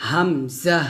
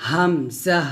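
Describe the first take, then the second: The two takes are said the same way.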